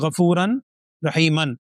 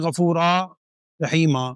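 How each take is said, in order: First: The last word ends with an n sound. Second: The last word ends with a long a. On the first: "دو زبر ہیں" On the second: "تو ہم پڑھتے ہیں"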